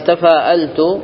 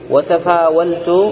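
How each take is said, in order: First: The middle consonant is a glottal stop. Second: The middle consonant is a w sound. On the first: "هنا حققت الهمزة" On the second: "هنا قلبت الهمزة واو"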